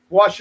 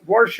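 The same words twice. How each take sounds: First: Said in the usual way. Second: "wash" with an r slipped in, warsh; folksy warsh for "wash". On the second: Shown as a demonstration. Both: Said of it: "Notice I said wash".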